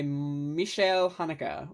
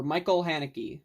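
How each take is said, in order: First: Michael as "mee-shy-EL", Haneke as "HAH-nuh-kuh"; European pronunciation. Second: Michael as "MY-kul", Haneke as "HAN-uh-kee"; anglicized pronunciation. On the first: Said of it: "however you want to pronounce his name". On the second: Reviewer offering the other way of saying it, Michael Haneke as "MY-kul HAN-uh-kee". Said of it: "I've heard it both ways". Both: Shown as a demonstration.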